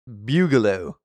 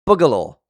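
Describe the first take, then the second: First: "Bugaloo" with a y-glide, BYOO-guh-loh; altered pronunciation of Bugaloo. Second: "Boogaloo" said with a plain oo in the first syllable; usual pronunciation of Boogaloo. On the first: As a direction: say "Bugaloo" starting like "bugle". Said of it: "I mean". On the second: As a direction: say "Boogaloo" as BOO-guh-loh, punched loud. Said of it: "It's pronounced Boogaloo". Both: Shown as a demonstration.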